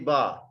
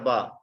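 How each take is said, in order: First: The vowel is long. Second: The vowel is short. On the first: "Kita tambah alif. Ini jadi ba" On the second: "Ini ada ba"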